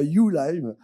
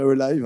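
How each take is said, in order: First: The name starts with a 'you' sound. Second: The name starts with a short 'uh' sound. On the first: The speaker calls it wrong. "et pas You Live, comme certains disent" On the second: The speaker calls it right. "le U et le H qui se prononcent bien E"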